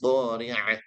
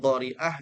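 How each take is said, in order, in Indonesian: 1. Konsonan tengahnya ain faringal. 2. Konsonan tengahnya hamzah glotal. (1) "Pastikan ainnya betul-betul keluar dari wastul halqi" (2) "ainnya dibaca hamzah"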